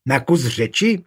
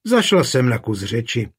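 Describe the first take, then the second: First: Řeči rising in a mildly argumentative echo; quarrelsome echo. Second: Said in the usual way. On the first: A narrator's reading. Daughter echoes her mother's excuse, quarrelsome. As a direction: throw her words back, picking a fight. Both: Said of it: "Věla Adleta hádavě".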